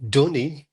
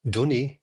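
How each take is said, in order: Both takes have the same delivery.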